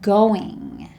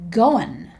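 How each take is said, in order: First: The ending is a full 'ing' sound. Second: The ending is a shortened 'in' sound.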